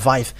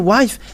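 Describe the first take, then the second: First: The word begins with a V sound. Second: The word begins with a W sound. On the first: "they pronounce it as V" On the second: "But if you say wife"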